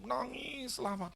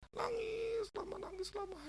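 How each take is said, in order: First: Said in the usual way. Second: High, tearful mock crying; imitating weeping. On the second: Preacher acting out the sick father's long weeping, tearful. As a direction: let the voice break like an old man weeping. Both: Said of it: "Si bapaknya nangis".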